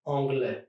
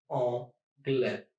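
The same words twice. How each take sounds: First: Said in the usual way. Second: Anglais in two separate syllables; split into syllables. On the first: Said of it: "Here are a few other examples". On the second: Shown as a demonstration. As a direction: pause between the syllables of anglais. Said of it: "try to divide words in syllables".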